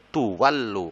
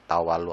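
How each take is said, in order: First: The first syllable has a u vowel. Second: The first syllable has an a vowel. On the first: The speaker calls it right. "harusnya tuwallu" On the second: The speaker calls it wrong. "Tawalla, tawalu harusnya tuwallu"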